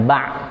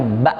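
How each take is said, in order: First: "ba" closed with a squeezed ain instead of a glottal stop; wrong ain ending. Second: "ba" ended by a clean, slightly pressed glottal stop; pressed hamzah ending. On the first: Teacher warning learners off the mistake, ba turned into ain. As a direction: let "ba" end in the throaty Arabic ain. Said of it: "nggak jadi ain ya, jangan". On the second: Teacher giving the correct reading, ba with pressed stop. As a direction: cut "ba" off with a hamzah, no ain. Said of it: "dia kayak ditekan sedikit". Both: Shown as a demonstration.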